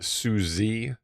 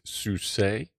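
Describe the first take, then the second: First: The name ends with an added ee vowel. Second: The name ends without an added ee vowel. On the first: The speaker calls it wrong. "So it's not Susie" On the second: The speaker calls it right. "It's Suse"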